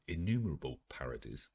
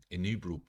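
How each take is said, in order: First: "innumerable" said in full as "in-NU-mer-a-ble"; carefully fix "innumerable", every syllable; corrected word. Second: "innumerable" garbled as "inubel", louder and higher; fumbled word. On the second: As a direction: trip over "innumerable", swallowing the middle. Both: Real, not acted.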